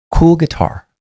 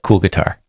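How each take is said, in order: First: High, light, kind compliment; kind and casual. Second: Said in the usual way. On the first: Retold or imitated. Officer complimenting a man's guitar, high kind voice. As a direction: say it kindly, not sarcastic. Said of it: "succinct and it was kind". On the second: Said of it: "Because I said".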